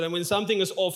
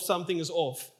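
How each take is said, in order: First: Said in the usual way. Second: Something is off repeated, softer and falling; softer echo. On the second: Shown as a demonstration. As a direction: let the echo drop away. Rhetorical echo of a phrase.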